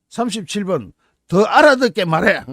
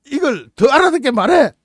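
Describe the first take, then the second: First: Said in the usual way. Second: Barked mock order, higher and louder; mock command. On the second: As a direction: bark it like an impatient soldier.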